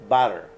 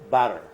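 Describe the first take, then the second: No difference in how they are said.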